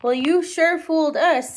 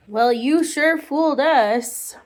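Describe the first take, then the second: First: Put-on child voice. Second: Put-on child voice, slow. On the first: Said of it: "said Tommy". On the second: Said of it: "Well, you sure fooled us," said Tommy".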